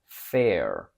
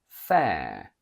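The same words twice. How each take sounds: First: An American accent with a lowered vowel. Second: A British accent with a long air vowel. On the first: "From British to American" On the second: "From British to American"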